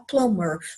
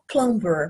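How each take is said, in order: First: The b sound is left out. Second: The b sound is clearly pronounced. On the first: "como se não tivesse esse B aí" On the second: "não vai falar plumber"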